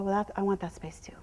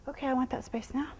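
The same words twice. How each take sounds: First: Hushed, unvoiced claim to the space; whispered claim. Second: Said in the usual way. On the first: Shown as a demonstration. Trainer showing how she claims the space, whispered. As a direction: whisper it as the herd leader. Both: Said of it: "tell her".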